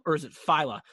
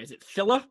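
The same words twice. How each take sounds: First: "Fila" said FYE-luh; Fila with long i. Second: "Fila" said FILL-uh; Fila with short i. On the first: Co-host offering another reading of the brand, saying "Fila" as FYE-luh. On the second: Co-host unsure of the brand's name, saying "Fila" as FILL-uh. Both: Shown as a demonstration. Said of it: "if you even pronounce it right".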